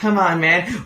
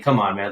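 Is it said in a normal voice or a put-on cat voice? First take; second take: cat voice; normal. First: It is said in a put-on cat voice. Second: It is said in his normal voice.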